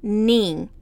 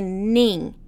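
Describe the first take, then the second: The two takes are said the same way.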